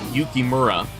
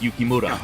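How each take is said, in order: First: The r is not a light Japanese-style tap. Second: The r is a light Japanese-style tap. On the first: The speaker calls it wrong. "it's not Yukimura" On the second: The speaker calls it right. "rolls his R's very similar to the Japanese pronunciation"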